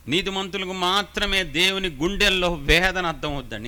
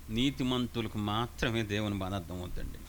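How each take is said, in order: First: Louder, with మాత్రమే stressed hard; emphatic repeat. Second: A hushed first telling; quiet, lowered. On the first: Preacher to congregation, emphatic louder repeat. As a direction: drive home మాత్రమే with force. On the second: Preacher to congregation, quietly lowered voice. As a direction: softly, pitch lower, నీతిమంతులకు said gently. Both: Shown as a demonstration. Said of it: "repeats the line louder".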